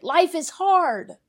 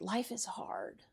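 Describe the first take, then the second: First: Higher, louder and slow; shouted. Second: Much softer, slow near-whisper. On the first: Preacher to congregation, slow raised shout. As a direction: call it out over the pews. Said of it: "she would shout it". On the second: Preacher to congregation, slow hushed whisper. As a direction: breathe it out almost silently. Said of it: "She would whisper it". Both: Retold or imitated.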